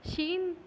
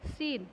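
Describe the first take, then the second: First: शीन said with a sh sound, not s; letter sheen. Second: सीन said with a clear s sound; letter seen. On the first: Teacher contrasts शीन with सीन. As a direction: say शीन with a soft sh. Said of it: "वो स है और ये क्या हो गया". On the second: Teacher contrasts सीन with शीन. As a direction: say सीन with a plain hissed s. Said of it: "जैसे सीन". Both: Shown as a demonstration.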